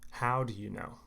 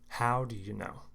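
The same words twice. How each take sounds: Both takes have the same delivery.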